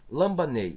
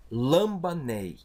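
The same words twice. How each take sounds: First: Said in the usual way. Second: "lambanei" dito devagar, sílaba por sílaba; pronúncia lenta. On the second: Shown as a demonstration. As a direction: articular "lambanei" lentamente, como modelo para a turma. (pronúncia lenta e didática de "lambanei") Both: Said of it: "eu tenho aqui uma palavra".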